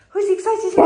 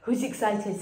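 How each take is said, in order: First: Much higher and louder, squealing with glee; high excited dog voice. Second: Said in the usual way. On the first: Acted. Owner hypes the dogs in a high, loud squeal. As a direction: pitch it way up like talking to puppies.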